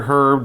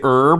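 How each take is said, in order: First: The word is said a non-North American way. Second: The word is said the North American way. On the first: "you might also hear herb depending on where your parents came from" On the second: "like North Americans"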